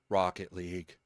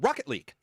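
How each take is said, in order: First: It is said at a lower, dropped pitch. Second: It is said at a normal, higher pitch. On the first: "that lower" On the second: "they don't go"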